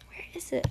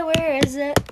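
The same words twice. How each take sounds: First: Whispered to herself; panicked whisper hunting for mute. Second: Said in the usual way. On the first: Real, not acted. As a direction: breathe it with no voice. Searching for the mute button. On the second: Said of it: "let me try".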